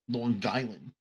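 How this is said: It is said in a North Shore Long Island accent.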